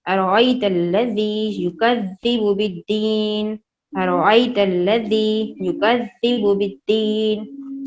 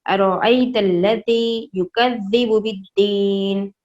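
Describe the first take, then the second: First: Slow, even recital to repeat; slowly, for repetition. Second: Slow, measured verse recital; final recitation. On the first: Teacher reciting slowly for children to repeat along. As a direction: recite slowly so they can follow. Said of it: "मेरे साथ एक दो दफ़ा इसे दोहराएं, Aahista Aahista". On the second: Teacher giving children the finished verse, slow recital. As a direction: recite the whole verse slowly. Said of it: "final इस आयत का इस तरह से पढ़ा जाएगा". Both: Shown as a demonstration.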